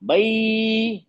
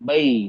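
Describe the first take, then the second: First: The vowel is stretched out for a long time. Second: The vowel is held for a medium length. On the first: The speaker calls it wrong. "लंबा खींच दिया मैंने" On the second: The speaker calls it right. "दरमियानी आवाज है।"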